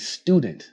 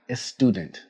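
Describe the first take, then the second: First: The word starts directly with the S sound. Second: A short vowel is added before the S sound. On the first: The speaker calls it right. "You say student" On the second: The speaker calls it wrong. "not a student. Do not add an extra vowel before the word"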